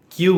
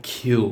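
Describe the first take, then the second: First: Said in the usual way. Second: "কিউ" with a puff after the K; careful, aspirated "কিউ"; corrected letter Q. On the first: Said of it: "এটা কিউ হবে না". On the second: Shown as a demonstration. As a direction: release air on "কিউ" and draw it out. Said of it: "এটা হবে".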